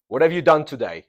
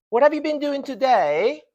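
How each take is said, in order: First: Said in the usual way. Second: "been doing today" held very high and loud, rising on TODAY; emphasis on duration. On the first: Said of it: "the emphasis is not on the process". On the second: Shown as a demonstration. Teacher repeating the contrast for students, duration emphasized. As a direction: make "been doing today" sound long and ongoing, pitched high. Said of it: "you are emphasizing the process".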